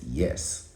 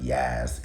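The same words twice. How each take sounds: First: Said in the usual way. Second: "yes" with a broad, drawn New York vowel; New York pronunciation. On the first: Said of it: "it's yes". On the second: Shown as a demonstration. Correcting a talk-show host, "yes" in mock New York accent. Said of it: "it's not yes".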